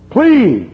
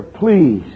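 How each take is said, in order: First: High, loud pleading please; mock plea rising to a cry; louder begging. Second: Said in the usual way. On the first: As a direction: beg harder on the second please. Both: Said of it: "They begged her".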